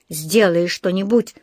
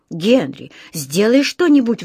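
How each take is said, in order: First: Slow, unexcited echo of a plea; echoing back. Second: Mildly anxious plea; pleading. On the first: Husband repeats his wife's plea back to her, echoing. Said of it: "повторил мистер Браун". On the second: Frightened wife begs her husband to act, pleading. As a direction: implore him for help, lightly voiced. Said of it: "взмолилась она". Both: A narrator's reading.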